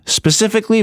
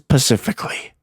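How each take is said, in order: First: The word begins with an s sound. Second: The word begins with a p sound. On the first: The speaker calls it right. "I found out there was an S in front of specifically" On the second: The speaker calls it wrong. "if you say pacifically, you are a moron"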